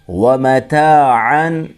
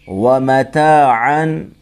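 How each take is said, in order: The two takes are said the same way.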